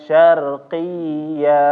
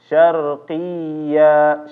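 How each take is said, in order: No difference in how they are said.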